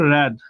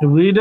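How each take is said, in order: First: The word has a short open 'e' vowel. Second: The word has a long 'ee' vowel. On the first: It is the past form. "বানান যদিও দুইটারই same তবে উচ্চারণ কিন্তু same না" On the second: It is the present form. "read এর past tense হচ্ছে read"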